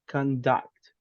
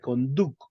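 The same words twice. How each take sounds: First: The u vowel sounds like a short uh. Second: The u vowel sounds like a Spanish oo. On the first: The speaker calls it right. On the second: The speaker calls it wrong.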